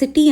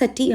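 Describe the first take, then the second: First: The first vowel sounds like 'ih' in sit. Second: The first vowel sounds like a weak 'uh'. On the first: The speaker calls it wrong. "నేను సిటీ అనట్లేదు" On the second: The speaker calls it right. "సటీ అంటున్నాను"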